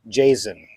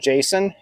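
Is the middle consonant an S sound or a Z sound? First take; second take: Z sound; S sound. First: The middle consonant is a buzzing Z sound. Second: The middle consonant is a hissing S sound. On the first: The speaker calls it right. "pretend the S is a Z" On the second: The speaker calls it wrong. "It's not Jason"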